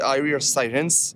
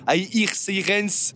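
First: It is said with an English accent. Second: It is said with a French accent.

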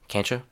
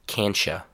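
First: It is said fast, with a relaxed mouth. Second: It is said slowly, with clear sounds. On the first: "the reduced form in a very natural way, with my mouth very relaxed" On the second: "the reduced form, but in a slower, cleaner, easier to understand way"

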